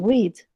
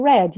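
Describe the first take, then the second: First: The vowel is long, as in 'seed'. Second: The vowel is short, as in 'bed'. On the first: The action happens in the present. The speaker calls it wrong. "não read" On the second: The action happened in the past. The speaker calls it right. "Se eu quero falar no passado, eu vou dizer read"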